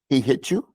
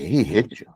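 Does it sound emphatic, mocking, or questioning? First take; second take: questioning; emphatic. First: It is said as a questioning remark. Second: It is said with strong, insistent emphasis. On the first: The speaker is asking whether it happened. "That's a question" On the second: The hit was hard. "I'm telling you, like, he hit you hard"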